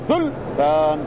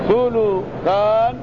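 First: The middle consonant has no vowel. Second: The middle consonant is followed by u. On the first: "وسكونها" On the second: "ضم اللام"

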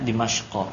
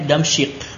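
First: The name is said as Dimashqo, ending in o. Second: The name is said as Damsyik, ending in k. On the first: The speaker calls it right. "Bacanya Dimashqo" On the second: The speaker calls it wrong. "tolip-tolip di Indonesia ini bacanya Damsyik. Ah itu tidak tepat ya"

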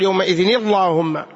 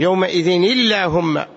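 First: The L in Allahumma sounds heavy and thick. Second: The L in Allahumma sounds light and thin. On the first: The speaker calls it wrong. "لا تقول يومئذ اللهم" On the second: The speaker calls it right. "إذا وصلتها ترقق"

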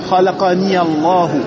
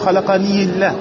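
First: The 'ni' links into 'Allah' with an added 'ya'. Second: The 'ni' runs into 'Allah' with no added 'ya'. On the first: The speaker calls it right. "pour faire la liaison, tu mettras une fatha ici" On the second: The speaker calls it wrong. "Tu peux pas dire khalaqani Allah. C'est trop dur"

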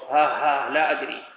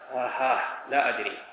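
First: It is said with a trembling, frightened voice. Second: It is said like someone laughing. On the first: The speaker calls it right. "هذا الصوت ما يفيد الرعب والخوف" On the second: The speaker calls it wrong. "ما تقراها كالضاحك"

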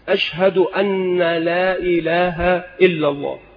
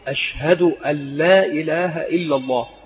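First: The n of 'an' is doubled, as anna. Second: The n of 'an' is light and single. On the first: The speaker calls it wrong. "بتشديد أن، وهذا خطأ من حيث اللغة العربية" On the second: The speaker calls it right. "فالنطق الصحيح"

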